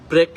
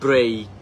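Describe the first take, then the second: First: The vowel is a plain short 'e'. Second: The vowel glides like 'ay'. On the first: The speaker calls it wrong. "ব্রেক না বলে" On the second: The speaker calls it right. "এইক, এই, ব্রেই"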